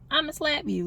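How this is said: It is said in a small, mocking voice. The words are being mocked. "using this little voice"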